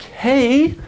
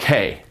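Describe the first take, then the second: First: The pitch rises at the end. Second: The pitch falls at the end. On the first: The speaker calls it wrong. "Instead of being like" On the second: The speaker calls it right. "where your voice goes down at the end"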